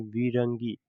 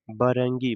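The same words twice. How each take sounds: First: विरंगी with an 'i' in the first syllable; correct pronunciation. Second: बरंगी with an 'a' in the first syllable; misread pronunciation. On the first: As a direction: say विरंगी, 'vi-ran-gi', as the corrected reading. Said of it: "इसे कैसे पढ़ेंगे?". (विरंगी, पहले अक्षर में छोटी इ के साथ) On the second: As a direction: say बरंगी, 'ba-ran-gi', as the mistaken reading. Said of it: "बरंगी नहीं". (बरंगी, गलत उच्चारण में पहला अक्षर 'ब') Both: Shown as a demonstration.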